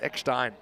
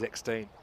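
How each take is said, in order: First: The name is pronounced the German way. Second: The name is pronounced the English way. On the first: "in German, it's Eckstein" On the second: "in English, we normally say it as Eckstein"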